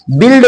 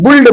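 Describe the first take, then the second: First: "बिल्ड" with a short i; correct vowel. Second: "बुल्ड" with an oo vowel; common mispronunciation. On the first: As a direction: say "बिल्ड" as bild. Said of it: "बिल्ड बोलेंगे". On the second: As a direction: say "बुल्ड" as buld, u for i. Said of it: "कुछ लोग बुल्ड बोलते हैं". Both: Shown as a demonstration.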